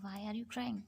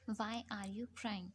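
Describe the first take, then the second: First: Said in the usual way. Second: "Why are you crying?" spelled out very slowly, each word drawn apart; slow model sentence. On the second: Shown as a demonstration. Teacher models the question for learners, very slow. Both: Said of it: "ज़रूर पूछ लीजिएगा".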